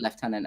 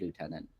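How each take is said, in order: First: It is pronounced the British way. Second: It is pronounced the American way. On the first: "we say lieutenant" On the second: "Americans say lieutenant"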